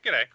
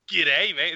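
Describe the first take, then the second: First: The greeting is said in a light, casual way. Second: The greeting is said in a hard, exaggerated way.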